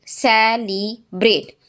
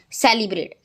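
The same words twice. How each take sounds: First: सेलिब्रेट spoken slowly as se-li-breT, one beat per syllable; सेलिब्रेट slowly clapped out se-li-breT; slow syllable split. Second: Said in the usual way. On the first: Shown as a demonstration. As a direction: stretch सेलिब्रेट out beat by beat for the class. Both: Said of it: "three syllable है".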